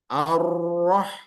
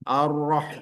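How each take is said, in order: First: The r is trilled strongly with many vibrations. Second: The r is raised with only a light trill. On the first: The speaker calls it wrong. "tak boleh karena getarannya cukup banyak" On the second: The speaker calls it right. "Naikkan ke atas"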